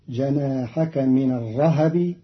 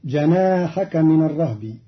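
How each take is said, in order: First: الرهب as ar-rahabi, a after h; vowelled ha. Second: الرهب as ar-rahbi, h straight into b; still ha in الرهب. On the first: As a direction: open the h of الرهب with a short a. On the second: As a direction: say الرهب with no vowel after h. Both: Shown as a demonstration. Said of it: "بتحريك".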